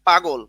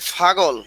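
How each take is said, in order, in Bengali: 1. শব্দটি সাধারণ p ধ্বনি দিয়ে শুরু হয়। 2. শব্দটি f-এর মতো ধ্বনি দিয়ে শুরু হয়। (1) "এই হলো শুদ্ধ পাগল" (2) "অনেকে বলে ফাগল"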